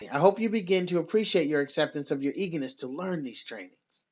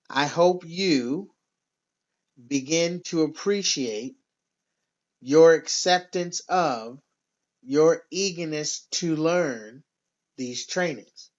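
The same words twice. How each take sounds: First: It is spoken smoothly at a normal conversational pace. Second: It is spoken slowly, broken into separate chunks.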